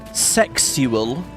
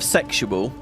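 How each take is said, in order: First: The word is said with an extra s sound. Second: The word is said without an extra s sound.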